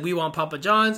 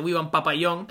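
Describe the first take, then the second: First: Said in the usual way. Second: Papayón said the Spanish way, pa-pa-YON with a y sound; mock Spanish accent reading Papayón; a light Spanish-accented Papayón. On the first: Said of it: "So I got a few funny tweets". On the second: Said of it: "comes off with a Spanish accent".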